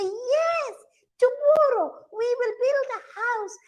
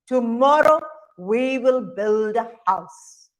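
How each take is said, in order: First: Very high, singsong mother monkey. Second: Father monkey. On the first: Mother monkey agreeing to build a house, high-pitched. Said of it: "mother monkeys would shake their head and say". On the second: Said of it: "father monkeys would shake their right hand and say". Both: Acted.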